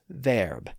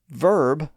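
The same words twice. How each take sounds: First: The vowel sounds like 'air'. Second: The vowel sounds like 'er'. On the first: This is the original pronunciation. "was originally pronounced verb" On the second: This is the modern pronunciation. "today we tend to associate that E R spelling with the er sound"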